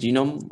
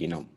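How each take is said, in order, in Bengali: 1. শব্দটি নরম 'j' দিয়ে শুরু হয়। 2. শব্দটি শক্ত 'g' দিয়ে শুরু হয়। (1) "আমরা বলি জিনোম" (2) "ওরা বলে গিনোম"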